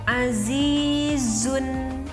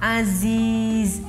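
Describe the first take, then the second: First: The word ends with an n, running on. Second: The word stops without a final n. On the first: The reading continues into the next word. "terdengar oleh kita ada nun matinya" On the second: The reading stops at this word. "gak ada nunnya"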